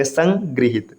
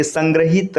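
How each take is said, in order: First: संगृहित broken up as "san, grihit"; correct syllables. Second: संग्रहित said as "san-gra-hit"; wrong vowel. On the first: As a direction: sound "gri" in संगृहित, after a split. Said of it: "इस प्रकार लिखा जाएगा". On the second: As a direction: sound a clear "gra" in संग्रहित. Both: Shown as a demonstration.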